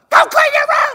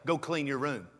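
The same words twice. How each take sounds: First: It is screamed loudly and angrily. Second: It is said calmly at normal volume.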